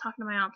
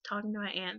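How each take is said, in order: First: The word aunt has a broad 'ah' vowel. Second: The word aunt sounds like the insect ant. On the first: "I would say" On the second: "sounds like I'm speaking with insects"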